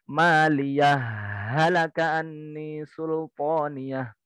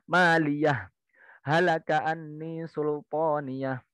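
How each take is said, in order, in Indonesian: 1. Setelah maliyah tidak ada jeda, langsung ke halaka. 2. Setelah maliyah ada tanda berhenti penuh. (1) "disambung wasol tapi masuk ke ha yang kedua" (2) "Bacaan yang pertama wakaf semua"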